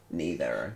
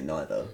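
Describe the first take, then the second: First: It is said in an American pronunciation. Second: It is said in a British pronunciation. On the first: This is how Americans say it. "Americans say neither" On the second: This is how the speakers themselves say it. "We say neither"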